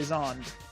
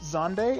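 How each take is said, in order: First: The name is said the common English-style way. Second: The name is said the Japanese way. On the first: This is how many players prefer to say it. "other people prefer to say Zond" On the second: This is the pronunciation the game's developers intended. "technically Zonde is pronounced Zonde in Japanese"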